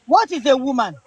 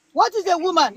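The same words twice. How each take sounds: First: Said in the usual way. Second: Repeated question pitched higher. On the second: Shown as a demonstration. Challenging a panelist, asking again much higher. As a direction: ask it again, higher and insistent.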